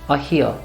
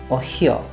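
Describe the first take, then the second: Both takes have the same delivery.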